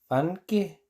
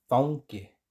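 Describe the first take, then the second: First: Fanke said with a plain a; teacher repeats the plain take. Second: Faunque said with au; teacher gives the correct take; Icelandic au. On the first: Plain a. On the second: Au vowel. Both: Shown as a demonstration. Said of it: "Otra vez".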